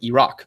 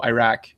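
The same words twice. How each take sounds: First: It is said with a local Arabic pronunciation. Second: It is said with an American pronunciation.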